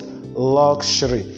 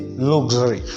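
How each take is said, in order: First: The middle consonant is an 'sh' sound. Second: The middle consonant is not an 'sh' sound. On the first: The speaker calls it right. "this X has and sh" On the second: The speaker calls it wrong. "We don't say luxury"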